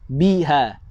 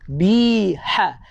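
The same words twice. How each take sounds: First: The h is plain, without much breath. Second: The h is breathy, with air pushed out. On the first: The speaker calls it wrong. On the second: The speaker calls it right. "Keluarkan angin"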